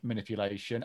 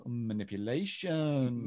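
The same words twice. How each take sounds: First: Said in the usual way. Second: "Mm, manipulation" drawn out slowly with a rise; savoured delivery. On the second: Retold or imitated. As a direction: linger on "manipulation" like tasting it. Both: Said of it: "I do like her delivery of".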